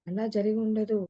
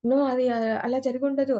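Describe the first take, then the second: First: Said in the usual way. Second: Higher and louder, stunned No; a demo of a startled, disbelieving outburst; shocked denial. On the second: Shown as a demonstration. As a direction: react as if hearing sudden bad news.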